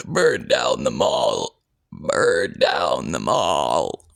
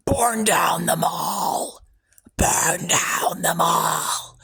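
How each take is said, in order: First: Very low, slow demonic growl; deep demonic voice. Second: Slow, breathy ghostly whisper of a command; eerie whisper. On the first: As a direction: drag it out like a monster from the void. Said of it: "or maybe like a". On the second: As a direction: hiss it slowly like a voice in your head. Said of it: "the words that were embedded into my head sounded like that". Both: Shown as a demonstration.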